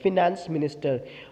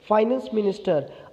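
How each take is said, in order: First: The first syllable of 'finance' sounds like 'fih'. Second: The first syllable of 'finance' sounds like 'fie'. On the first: "कुछ लोग इसको फिनेंस minister भी प्रोनाउंसिएट करते हैं" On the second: "English में कहा जाता है फाइनेंस मिनिस्टर"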